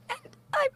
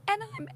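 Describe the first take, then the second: First: Voice going up. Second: Said in the usual way. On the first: Retold or imitated. Daughter at the wedding toast, voice rising with emotion. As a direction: pitch jumps way higher, choking up. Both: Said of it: "and her voice goes up".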